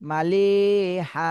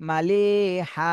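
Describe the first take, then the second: Both takes have the same delivery.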